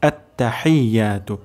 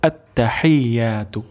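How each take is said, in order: No difference in how they are said.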